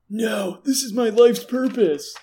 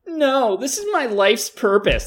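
First: It sounds like a raspy Yamcha impression. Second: It sounds like a Sasuke impression.

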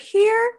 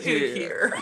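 First: The word is said at a high pitch. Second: The word is said at a low pitch.

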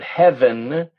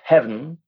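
First: The word is said with two syllables. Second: The word is said with one syllable. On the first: "the word heaven becomes" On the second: "becomes heaven"

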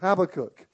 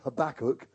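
First: The name is said in a British way. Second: The name is said in an American way.

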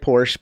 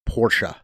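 First: It is said the American way, without a final vowel. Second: It is said the German way, with a final vowel.

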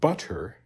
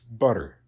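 First: The middle consonant is a clear, full T. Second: The middle consonant is a quick tap. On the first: The speaker calls it wrong. "The double T in the American standard pronunciation is not butter" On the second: The speaker calls it right. "that kind of tapped R"

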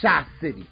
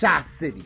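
First: The name is said with a strong regional twang. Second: The name is said with a strong regional twang.

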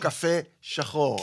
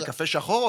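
First: A short break separates the two words. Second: The two words run together without a break. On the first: It offers coffee and calls the listener blackie. "או קפה, אבל קוראת לי שחור"

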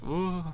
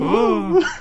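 First: It is said with very little energy. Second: It is said with somewhat more energy.

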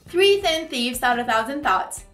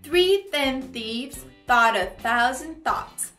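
First: It is said somewhat fast. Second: It is said at a moderate pace.

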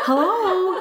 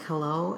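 First: It is said in a funny put-on voice. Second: It is said in her normal voice.

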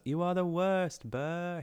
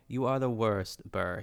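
First: It is said with the pitch raised. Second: It is said at a normal pitch.

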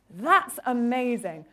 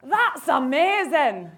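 First: It is said in the speaker's plain accent. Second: It is said in an attempted Glaswegian accent.

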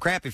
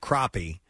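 First: It is said with a Southern pronunciation. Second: It is said with a Midwestern pronunciation. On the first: "But I lived in South Carolina. It was always" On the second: "When I lived in the Midwest, it was called crappie"

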